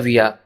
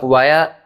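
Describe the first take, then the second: First: The first syllable sounds like 'vee'. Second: The first syllable sounds like 'vai'. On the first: "वाया या विया दोनों बोल सकते हैं" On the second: "वाया या विया दोनों बोल सकते हैं"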